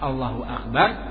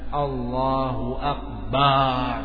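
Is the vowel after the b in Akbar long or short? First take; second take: short; long. First: The vowel after the b is short. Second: The vowel after the b is drawn out long. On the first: Allah is the greatest. The speaker calls it right. "mesti dengan lafaz Allahu Akbar" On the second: It means a drum instead of greatest. The speaker calls it wrong. "Panjang ba-nya. Ini salah"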